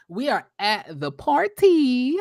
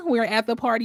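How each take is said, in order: First: Slow, stretched words rising high at the end; drawn-out announcement. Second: Said in the usual way. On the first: Pretend. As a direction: draw out "party" in a playful singsong. Drawn-out announcement of next scene.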